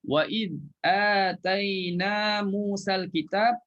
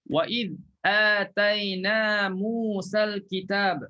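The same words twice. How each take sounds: First: Slow chanted recitation running on; tajwid recitation. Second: Slow chanted Quran recitation; tajwid recitation. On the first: Ustaz showing the joined reading, slow melodic chant. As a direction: recite slowly, carrying on past kitab. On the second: Ustaz reciting to his class, slow melodic chant. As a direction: recite it slowly, stopping at kitab. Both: Shown as a demonstration. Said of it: "Kalau kita sambung".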